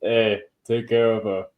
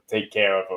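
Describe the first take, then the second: First: A bit more Boston; Boston accent. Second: Put-on weak Boston accent; a hint of Boston in the vowels. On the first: Retold or imitated. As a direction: lean harder into Boston. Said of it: "That's a little better". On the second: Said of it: "that's my Boston accent".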